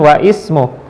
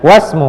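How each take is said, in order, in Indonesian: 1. Bunyi 'i' dilafalkan sebagai suku kata tersendiri. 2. Bunyi 'i' dihilangkan dan kata-katanya menyatu. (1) "bukan wa ismu" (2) "tetapi langsung dia was, i-nya tidak dibaca"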